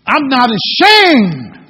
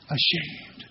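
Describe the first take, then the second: First: Loud, slow, defiant; hammed-up boast of ashamed drawn out loud; bold declaration. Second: Breathy whispered answer; just breathe the word out; a soft hushed ashamed. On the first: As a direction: stand up and proclaim it proudly. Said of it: "would just stand up and say". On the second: Acted. Congregation prompted to finish verse.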